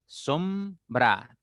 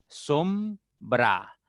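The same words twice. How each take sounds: First: Said in the usual way. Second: Sombra split slowly as som-bra; syllable by syllable. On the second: Shown as a demonstration. Teacher to pupils, sounding out sombra in syllables. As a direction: spell out sombra in slow syllables. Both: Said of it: "Entonces tengo sombra".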